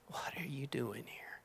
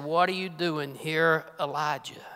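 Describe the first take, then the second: First: Still small voice. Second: Said in the usual way. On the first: Acted. A preacher voicing God's whisper to Elijah in the cave. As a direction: whisper it like a voice barely heard. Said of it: "Still small voice". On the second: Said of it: "a voice came to him".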